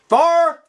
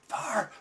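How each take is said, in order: First: The word is yelled loudly. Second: The word is said quietly and calmly. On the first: There is an urgent emergency. The speaker calls it right. "would you want me to yell" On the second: There is no urgency. The speaker calls it wrong. "or you want me to say"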